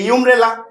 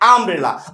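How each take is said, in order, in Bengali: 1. শব্দটি 'yoo' ধ্বনি দিয়ে শুরু হয়। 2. শব্দটি 'uh' ধ্বনি দিয়ে শুরু হয়। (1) "আমি কি বলছি যে ইউমব্রেলা?" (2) "ওই ওয়ার্ডের উচ্চারণ কি? আমব্রেলা।"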